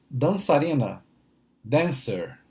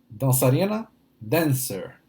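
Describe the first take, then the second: Both takes have the same delivery.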